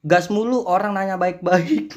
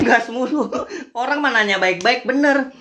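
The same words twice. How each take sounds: First: Said in the usual way. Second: High-pitched, tickled repeat after a laugh; amused agreement. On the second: Real, not acted. Creator repeating a netizen's comment he agrees with, amused and emphatic. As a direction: echo it emphatically, voice lifted.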